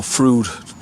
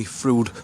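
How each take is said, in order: First: Frood said as FROOD, long oo like food; Frood, rhyming with food; alternative pronunciation. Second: Frood said as FROOD after spelling it out; Frood, oo as in food, said firmly; spelled then said. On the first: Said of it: "depending on how you pronounce it". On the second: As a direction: land on Frood, long oo, falling. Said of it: "F R U I D". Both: Shown as a demonstration.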